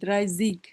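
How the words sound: The ending is said with a z and hard g. "অনেক জায়গায় ইংরেজির মতো জিগও বলে"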